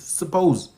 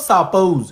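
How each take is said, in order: First: The first vowel is a reduced schwa. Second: The first vowel is a full open vowel. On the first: The speaker calls it right. "It's a schwa" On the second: The speaker calls it wrong. "We think it's an open mouth vowel. So you say suppose. It's not suppose"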